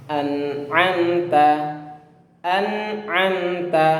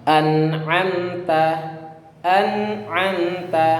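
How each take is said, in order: No difference in how they are said.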